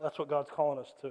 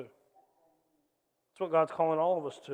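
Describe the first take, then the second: First: Said in the usual way. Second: "That's what God's calling all of us to" slowed, every word weighted; slow emphatic restatement. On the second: Shown as a demonstration. The pastor presses the point to the church, slow and weighted. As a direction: lean into it, slowly.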